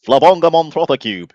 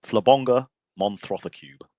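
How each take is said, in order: First: Loud, high mock-Mancunian burst; raised, hammed-up Mancunian impression; terrible Mancunian accent. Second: Flabonga Montrotha Cube said slowly and deliberately; slow, careful Flabonga Montrotha Cube; pronouncing the show name. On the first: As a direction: blurt it in a badly faked Mancunian accent. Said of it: "That was my terrible accent". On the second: Shown as a demonstration. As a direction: sound out Flabonga Montrotha Cube at an unhurried pace. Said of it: "How do you pronounce the name".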